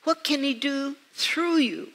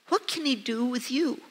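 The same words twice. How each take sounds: First: "through" set apart and stressed, falling on "you". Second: "what can he do with you" softly, rising on "you"; rising question. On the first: Preacher challenges the listeners to be used, stress on "through". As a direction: raise the pitch, lean on "through", then fall. Question repeated with changed key word. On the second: Preacher turns the story on the listeners, rising on "you". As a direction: ask it gently, lifting the end on "you". Rhetorical question, first of two versions. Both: Real, not acted.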